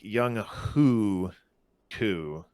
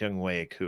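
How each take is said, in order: First: The middle syllable begins with an h sound. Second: The middle syllable begins with a w sound. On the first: This is how the name looks when read as spelled. The speaker calls it wrong. "it looks like it's it's like" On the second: This is how the name is actually pronounced. The speaker calls it right. "but it's Young Wei Koo apparently"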